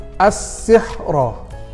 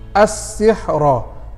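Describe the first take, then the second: First: The word ends with a short a vowel. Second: The word ends with a short a vowel.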